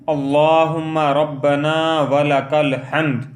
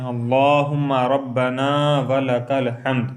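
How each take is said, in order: First: Slow, sung recitation, a little louder; melodic recitation. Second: Said in the usual way. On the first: Shown as a demonstration. Teacher showing the words said upright, slow chant. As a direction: chant it slowly with a gentle melody. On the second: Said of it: "تو کہیں".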